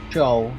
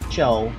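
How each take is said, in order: First: The name is said with one syllable. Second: The same.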